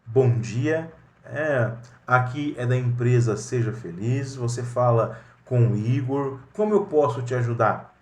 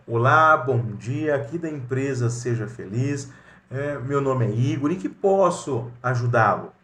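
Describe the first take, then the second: First: Courteous receptionist answering a call; professional phone greeting. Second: Polite receptionist greeting with a bright hello; professional phone greeting. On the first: Igor answering a client's call at Seja Feliz, courteous and professional. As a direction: greet the caller politely and crisply, ready to help. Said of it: "como que deve ser o processo adequado?". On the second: Igor greeting a client on the company phone, courteous and professional. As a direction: open with a friendly hello, then offer help. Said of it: "Olha o profissionalismo".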